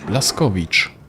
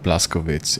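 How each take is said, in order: First: The name ends with a 'vich' sound. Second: The name ends with a 'witz' sound. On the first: This is how the name is really said. The speaker calls it right. "it's Blaskovich" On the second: This is how English speakers say it. The speaker calls it wrong. "It's funny how English people like pronounce this. It's not Blaskowitz"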